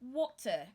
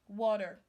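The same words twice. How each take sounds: First: The T is pronounced as a clear T. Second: The T is pronounced like a D. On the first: "or water. Either way, you are correct" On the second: "You turn your letter T sound to D"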